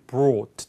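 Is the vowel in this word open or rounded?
rounded. The vowel is rounded, close to 'oh'. "영국인 호주는 이제 brought 훨씬 더 입을 둥그렇게 오처럼 발음하게 돼요"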